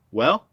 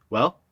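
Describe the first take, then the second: First: Louder, more insistent "Well?" rising higher; more eager. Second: Quick eager rising "Well?"; eager question. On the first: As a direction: push harder for the answer. Buddy repeats, more pressing. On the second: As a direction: press him, eager for the story. Buddy eager to hear news. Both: Acted.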